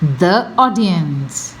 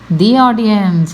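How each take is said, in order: First: The article is said with a short 'thuh' vowel. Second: The article is said with a long 'thee' vowel. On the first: The speaker calls it wrong. "any uh, mistakes are only to make you aware" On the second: The speaker calls it right. "When the comes before the, um, uh, you know, the uh, vowel sound, how should it be pronounced? So I should have said"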